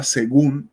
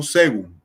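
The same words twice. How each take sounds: First: Según stressed on the final -gún; según said correctly as se-GÚN; stress on last syllable. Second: Según mis-stressed on the first syllable, SÉ-gun; wrong stress. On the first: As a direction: land the weight on the second syllable of según. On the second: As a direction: punch the se- of según, letting -gún drop. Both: Shown as a demonstration. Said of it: "yo no digo según".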